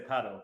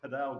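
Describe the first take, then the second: First: It is said like the English word paddle. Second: It is said with a Spanish-flavored pronunciation. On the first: This is how a British speaker says it. "I'm a Brit. I say paddle" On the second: This is how it is often said in the States. "kind of using the Spanish intonation a bit"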